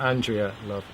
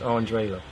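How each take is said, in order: First: The first name is said with three syllables. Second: The first name is said with two syllables. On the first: The speaker calls it wrong. "It's not Andrea Love" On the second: The speaker calls it right. "It's Andre Love"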